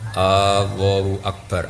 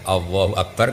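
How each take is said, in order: First: The opening vowel is drawn out long. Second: The opening vowel is short. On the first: It asks whether God is great. The speaker calls it wrong. "coba panjang. Jadi istifham" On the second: It declares that God is great. The speaker calls it right. "jelas itu kalam khobar"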